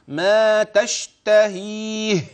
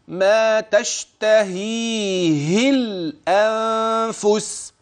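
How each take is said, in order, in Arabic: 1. تنتهي الكلمة بهاء ساكنة. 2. الهاء الأخيرة تحمل كسرة تصل إلى الكلمة التالية. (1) "أردت الوقف هنا" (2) "ولكني سأصل"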